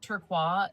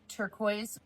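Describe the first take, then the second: First: The word is said in a fancy way. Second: The word is said in an ordinary way.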